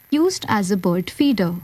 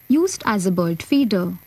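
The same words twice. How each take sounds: The two takes are said the same way.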